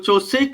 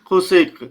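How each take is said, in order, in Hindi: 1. यह सादी "ch" आवाज़ से शुरू होता है, गले वाली नहीं। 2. यह गले से निकली खुरदरी आवाज़ से शुरू होता है। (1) "वैसे उसको चोसेक है ना बोल बोल सकते हैं" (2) "खोसेक खोसेक ऐसे करके मतलब क्योंकि गले से बोला जाता है"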